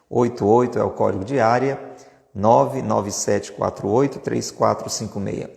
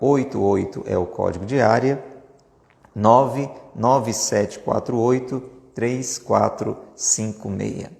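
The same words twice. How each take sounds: First: It is said at normal speed. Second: It is said very slowly.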